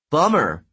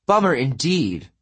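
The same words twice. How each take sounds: First: Said in the usual way. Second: Bummer indeed sighed out, mildly weary; a god's half-sigh on Bummer indeed. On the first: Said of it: "Leo said". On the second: A narrator's reading. Apollo echoes Leo with a mild sigh on Bummer indeed. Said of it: "Apollo sighed".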